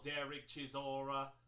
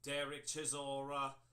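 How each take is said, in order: The two takes are said the same way.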